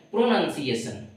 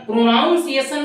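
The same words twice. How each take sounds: First: प्रोनाउंसिएशन with a short "nan", lower and softer; प्रोनाउंसिएशन with no "ow" in the second syllable; correct pronunciation demo. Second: प्रोनाउंसिएशन with "naun", pitched high; प्रोनाउंसिएशन with an "ow" in the second syllable; wrong pronunciation demo. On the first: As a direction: say प्रोनाउंसिएशन as "pro-nun-siation". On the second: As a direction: say प्रोनाउंसिएशन as "pro-NOUN-siation", raised. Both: Shown as a demonstration. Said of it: "प्रोनाउंसिएशन नहीं".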